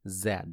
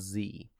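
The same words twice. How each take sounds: First: It is said 'zed', the British way. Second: It is said 'zee', the American way.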